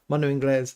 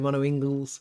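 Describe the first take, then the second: First: Inglés is pronounced the Spanish way. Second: Inglés is pronounced an anglicized way. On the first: The speaker calls it right. "It's Inglés as in Spanish" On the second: The speaker calls it wrong. "a lot of people say"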